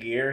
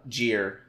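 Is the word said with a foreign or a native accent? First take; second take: native; foreign. First: It is said in a plain native accent. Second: It is said with a put-on foreign accent. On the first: "instead of saying gear" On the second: "he was foreign, and instead of saying gear, he was saying, like, gear"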